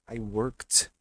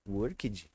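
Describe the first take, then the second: First: Worked loud, ending in "kt"; corrected ending. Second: Worked echoed as "uórkidji"; wrong extra syllable. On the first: Teacher correcting the student's error, worked as "workt". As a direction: punch worked as one syllable, "workt". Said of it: "vai ter som de T". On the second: Teacher echoing the student's error, worked as "uórkidji". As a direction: say worked with a Brazilian "idji" ending. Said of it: "Nunca mais você vai falar worked". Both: Shown as a demonstration.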